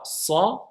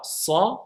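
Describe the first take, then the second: First: The s is emphatic, with a full heavy sound. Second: The same.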